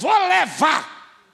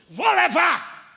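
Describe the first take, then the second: First: It is said firmly at normal loudness. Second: It is shouted loudly.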